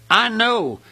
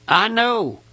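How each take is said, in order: Both takes have the same delivery.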